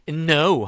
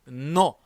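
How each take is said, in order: First: It is said with an English-like sound. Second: It is said plainly, without an English sound. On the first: The speaker calls it wrong. "no 하지 마시고" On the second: The speaker calls it right. "no 라고 담백하게 발음을 해주셔야 돼요"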